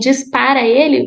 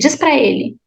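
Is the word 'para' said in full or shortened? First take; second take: full; shortened. First: The middle word is said in full, two syllables. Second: The middle word is shortened and linked to the next. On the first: "instead of saying diz para ele" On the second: "we say diz pra ele. It's almost like it's one word only"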